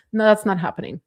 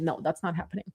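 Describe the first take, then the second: First: Firm refusal. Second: Low, soft and under the breath; quiet dismissal. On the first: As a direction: put your foot down this time. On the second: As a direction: say it softly to yourself first. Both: Shown as a demonstration.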